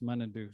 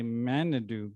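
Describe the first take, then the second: First: "Munadu" with first syllable MUN, as in "month"; proper pronunciation. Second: "Manadu" with first syllable like "man"; mistaken pronunciation. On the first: Speaker correcting the misreading for the audience, "Munadu" said MUN-a-du. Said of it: "it's properly pronounced Munadu". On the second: Speaker showing the audience the likely misreading, "Manadu" said MAN-a-du. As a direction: say "Manadu" as it looks written, MAN-a-du. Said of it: "it looks like you might say". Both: Shown as a demonstration.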